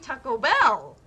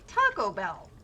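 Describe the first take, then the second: First: The stress falls on the second word. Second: The stress falls on the first word. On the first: The speaker calls it wrong. "You don't do Taco Bell" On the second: The speaker calls it right. "That's why you put the emphasis on the first part"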